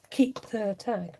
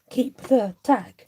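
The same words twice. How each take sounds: First: "Keep the tag" repeated softer, stress on "keep"; quieter echo. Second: "Keep the tag" said louder and slower, stress on "the"; loud slow emphatic. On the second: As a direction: declare "Keep the tag" firmly, leaning on "the". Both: Shown as a demonstration. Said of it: "repeating the vote result".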